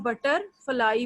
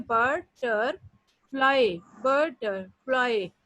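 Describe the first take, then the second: First: Said in the usual way. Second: बटरफ्लाई said very slowly, split as बट-टर-फ्लाई; syllable by syllable. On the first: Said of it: "तो तीन जगह हम रुकते हैं". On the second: Shown as a demonstration. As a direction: stretch बटरफ्लाई out, each syllable apart. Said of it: "बटरफ्लाई को हम कैसे बोलते हैं?". (बटरफ्लाई को बहुत धीरे, बट-टर-फ्लाई तोड़कर बोलें)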